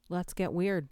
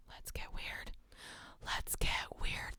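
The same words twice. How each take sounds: First: Said in the usual way. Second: Soft, creepy ear whisper. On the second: Pretend. Streamer trying the line as an ear whisper. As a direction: whisper it right into their ear. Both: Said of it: "good one to say in someone's ear".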